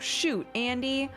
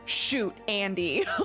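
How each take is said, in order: First: Shoot is a dismayed exclamation. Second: Shoot is a blunt command. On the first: The speaker is sorry about a mistake. "oh, shoot, Andy" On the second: Someone is being told to shoot a person. "like with a gun"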